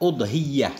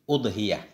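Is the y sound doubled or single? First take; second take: doubled; single. First: The y sound is doubled and held longer. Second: The y sound is single and short. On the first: "U dengan dhammah bersama tasydid ya" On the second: "dengan dhammah hamzah nggak pakai tasydid"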